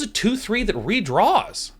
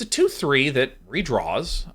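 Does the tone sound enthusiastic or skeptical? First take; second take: enthusiastic; skeptical. First: The tone sounds enthusiastic and impressed. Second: The tone sounds skeptical and unimpressed. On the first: The card is rated excellent. "Watch me say the same thing as a five out of five" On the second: The card is rated mediocre. "The second one is a two point five out of five kind of tone"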